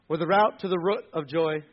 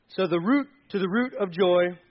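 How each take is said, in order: First: "route" said like "out", then "root" with a short vowel; route said as rout. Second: "route" uitgesproken als "root", rhymes with root. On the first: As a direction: say "route" to rhyme with out. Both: Shown as a demonstration.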